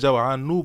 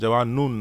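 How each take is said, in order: First: The word ends on a vowel, no final n. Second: The word ends with an added n sound. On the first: The speaker calls it right. "এখানে আপনি জাওয়ানু বলবেন" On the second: The speaker calls it wrong. "জাওয়ানুন নয়"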